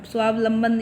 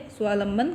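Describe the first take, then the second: First: स्वावलंबन with the first 'va' syllable fully sounded; correct pronunciation. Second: स्वावलंबन shortened to swaa-lamban; wrong pronunciation. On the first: Teacher shows students the right word, correct pronunciation of स्वावलंबन as swaav-lamban. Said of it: "ये सही है". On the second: Teacher rejects a common error, mispronouncing स्वावलंबन as swaa-lamban. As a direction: drop the middle v of स्वावलंबन, saying swaa-lamban. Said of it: "कुछ नहीं होता". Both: Shown as a demonstration.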